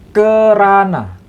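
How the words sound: The first vowel is e, the second a. This is how Malaysians say it. "Orang Malaysia itu kan yeah. mengatakan uh"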